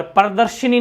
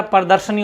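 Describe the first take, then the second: First: प्रदर्शनी with "shi" before the final "ni"; wrong form of प्रदर्शनी. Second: प्रदर्शनी with "sha" before "ni"; correct form प्रदर्शनी. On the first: Teacher showing the vowel error, प्रदर्शनी said "pradarshini". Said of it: "प्रदर्शनी नहीं होता है". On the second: Teacher correcting the vowel error, प्रदर्शनी with "shani". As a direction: say प्रदर्शनी as "pradarshani". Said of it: "प्रदर्शनी होता है". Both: Shown as a demonstration.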